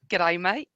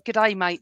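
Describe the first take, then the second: First: It is said in an imitated Australian accent. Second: It is said in the speaker's ordinary accent.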